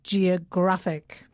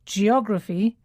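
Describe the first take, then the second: First: Geographic with the stress on GRAPH, slow and falling; teacher showing the adjective's stress. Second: Geography with the stress on OG, rising; teacher contrasting noun and adjective. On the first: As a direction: hit the GRAPH syllable of geographic. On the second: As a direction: lean on the second syllable of geography. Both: Shown as a demonstration. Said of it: "the stress falls on the penultimate syllable".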